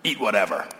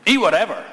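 First: Said in the usual way. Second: "Eat whatever" repeated higher and louder, punched; stress on "Eat whatever". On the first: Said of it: "you see it there". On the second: Shown as a demonstration. Pastor pressing Paul's answer on the congregation, "Eat" hit hard and loud. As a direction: drive home "Eat whatever" with a strong falling stress on "Eat".

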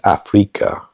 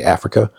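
First: "Africa" with a strong, drawn "FREE" in the middle; second syllable stressed. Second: Said in the usual way. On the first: Shown as a demonstration. Learner correcting the English way of saying it, second syllable of "Africa" stressed. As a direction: say "Africa" as ah-FREE-ka, Spanish style. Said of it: "the second pronunciation is more pronounced". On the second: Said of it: "like we say Africa".

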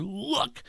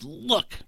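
First: High, softer look of defiance; son's defiant look at the father; insolent look. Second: Raised, insolent look; defiant look. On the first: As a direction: jab the word at him. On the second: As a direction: point a finger with the word. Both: Retold or imitated. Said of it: "a defiant and insolent".

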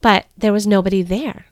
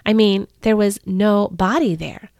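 First: Said in the usual way. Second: "no body" split into two words, body hit hard; stress on no body. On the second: Shown as a demonstration. Mary correcting herself, stressing "no body". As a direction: pull "no" and "body" apart to fix the pun.

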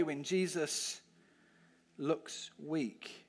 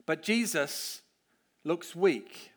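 First: "looks weak?" dropped much softer, a lower, searching question. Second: "looks weak" said firmly and falling, as a plain statement; stress on looks weak. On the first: Preacher asking the kids, softly probing. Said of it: "repeats the phrase as a question". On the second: Preacher telling the kids, stating it firmly. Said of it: "repeats the phrase for emphasis". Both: Shown as a demonstration.

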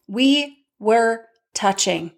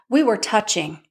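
First: "We... were... touching", slow with gaps; word-by-word emphasis. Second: Said in the usual way. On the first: Real, not acted. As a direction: space out "We were touching" for effect.

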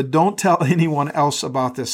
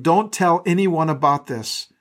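First: Requoted lightly with a small laugh; amused repeat. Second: Slow, firm, with weight on anyone; stern warning. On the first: Shown as a demonstration. Pastor pausing on the verse for the church, lightly amused. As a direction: chuckle through the repeated warning. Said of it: "pause here on the". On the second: Acted. Jesus warning the healed man, slow and stern. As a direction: warn him gravely, slowing right down. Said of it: "with a stern warning".

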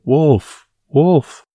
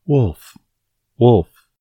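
First: High, loud scream of terror; panicked cry for help, much higher; terrified shout. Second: Calling out loud to the village; shouting. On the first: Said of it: "In terror". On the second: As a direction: yell it out, high and loud. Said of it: "shouting at the top of his voice". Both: Acted.

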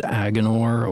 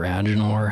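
First: "Agenor" with a hard g; hard-g pronunciation. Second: "Agenor" with a soft g; soft-g pronunciation. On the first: Host trying a book name, "Agenor" with hard g. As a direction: say "Agenor" as AG-uh-nor, g as in go. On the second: Host offering another reading, "Agenor" with soft g. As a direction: say "Agenor" as AJ-uh-nor, g like j. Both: Shown as a demonstration. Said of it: "however you say that".

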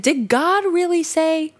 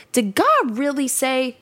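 First: Higher, sly, doubting question; insinuating serpent. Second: A touch of a sly, doubting serpent; sly serpent question. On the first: Shown as a demonstration. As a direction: plant doubt in her mind like a sly serpent. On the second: Acted. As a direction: read it as the serpent sowing doubt, lightly. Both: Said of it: "see how he says it like that?".

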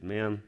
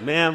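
First: Said in the usual way. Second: High, loud, smiley greeting; big smile. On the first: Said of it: "I quietly stepped behind her". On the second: Retold or imitated. Man called intimidating greets a stranger, with a big smile. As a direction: pitch it up with a big friendly smile. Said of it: "I had a big smile on my face".

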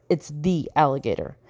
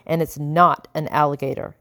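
First: "the" leaned on as in the one and only; "the" stressed and set apart from "an". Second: Said in the usual way. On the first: A narrator's reading. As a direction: hit the word "the", dropping softer after it.

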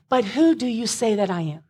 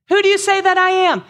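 First: Said in the usual way. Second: Loud. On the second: Acted. Reads Jesus' question twice.

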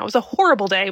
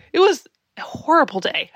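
First: Said in the usual way. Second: Laughing through it, higher and louder. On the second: Real, not acted. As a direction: laugh it off as you say it. Laughing at the memory.

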